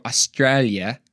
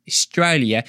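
First: Said in the usual way. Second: "Australia" said the Aussie way; Australian accent. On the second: Shown as a demonstration. Speaker showing off his practised accent, Australian accent. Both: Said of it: "I've been working my Australian accent".

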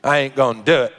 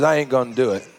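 First: Low Arkansas twang, played for fun; Arkansas accent. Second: A hint of Arkansas accent, pitched low. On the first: Shown as a demonstration. Preacher imagines Jesus talking to Pharisees in Arkansas accent. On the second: Preacher quotes Jesus refusing the Pharisees, light Arkansas accent. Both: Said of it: "talking in an Arkansas accent".

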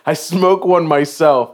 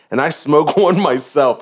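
First: Slow, deliberate retelling. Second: Laughing. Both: Real, not acted. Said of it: "this is funny as shit".

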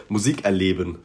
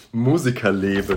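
First: "Musikerleben" as Musik-Erleben; word split Musik-Erleben. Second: "Musikerleben" as Musiker-Leben; word split Musiker-Leben. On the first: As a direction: break "Musikerleben" after Musik. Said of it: "hier würde man vielleicht". („Musikerleben“ als „Musik-Erleben“ gelesen) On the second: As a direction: break "Musikerleben" after Musiker. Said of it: "da steht Musikerleben". („Musikerleben“ als „Musiker-Leben“ gelesen) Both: Shown as a demonstration.

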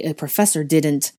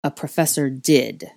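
First: Draco's heated scolding; irritated, forceful reprimand; scolding boy. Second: Coldly intoned interjection; stern, icy professor; deep, cold voice. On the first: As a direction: scold them, pressing the words. Draco scolding, then cut off. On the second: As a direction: intone it coldly with firm weight. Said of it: "a deep, cold voice intoned". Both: A narrator's reading.

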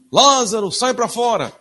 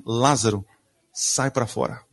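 First: Loud, high mock command, like a cartoon; hammed-up shout calling the dead out; preacher mocking the childish cartoon version of Jesus; cartoon-style booming call. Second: Said in the usual way. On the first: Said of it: "a gente imagina assim, ó, Jesus falando assim". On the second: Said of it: "Ele fala assim".

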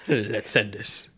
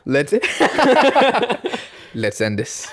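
First: Put-on slow, quiet German-accented English. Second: Put-on German accent. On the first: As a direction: drawl it with a thick German accent. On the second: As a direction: say it like a heavy German. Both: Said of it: "todesten deutschen Akzent".

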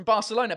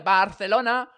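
First: Said in the usual way. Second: "Barcelona" said the Castilian way, with a lisped c as th; Spanish pronunciation. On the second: Shown as a demonstration. Reads Spanish beer label.

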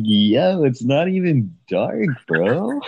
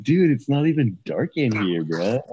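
First: High, drawn-out surfer dude; hammed-up surfer, louder and higher; full surfer voice. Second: A hint of surfer dude; lightly voiced surfer, starting higher. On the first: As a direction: go full surfer, stretching the words out. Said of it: "I go full, like, surfer voice". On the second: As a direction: imitate a surfer, only partway. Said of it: "surfer voice".

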